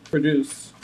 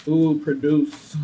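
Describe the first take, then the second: First: Said in the usual way. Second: Slow, savouring ooh produce; drawn-out delighted produce; relishing the word. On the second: Shown as a demonstration. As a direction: roll produce around slowly like a treat.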